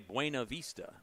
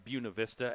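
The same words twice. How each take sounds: First: The name is pronounced as read from spelling. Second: The name is pronounced the way locals say it. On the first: This is how outsiders read the name. The speaker calls it wrong. "a lot of people would look at it and say" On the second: This is how the town itself says it. The speaker calls it right. "but it's it's"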